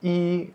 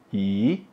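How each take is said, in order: First: It is said with a high level tone. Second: It is said with a rising tone. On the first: It stands alone, as when counting. "i, nada satu" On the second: It comes before a fourth-tone syllable. "Kalau ke itu nada empat, jadinya i"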